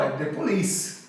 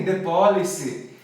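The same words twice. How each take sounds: First: Police stressed on the second syllable, po-LEECE; correct police stress. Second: Police with stress moved to PO, POH-lee-see; mispronounced police. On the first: Teacher correcting a friend on the band name, correct Police stress. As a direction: land Police firmly on LEECE. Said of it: "Sílaba tônica é li". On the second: Friend getting the band name wrong, mispronounced Police. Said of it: "Ele falou pra mim". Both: Retold or imitated.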